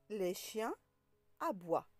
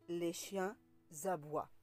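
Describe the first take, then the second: First: No z sound links chiens to aboient. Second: A z sound links chiens to aboient. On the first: The speaker calls it right. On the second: The speaker calls it wrong.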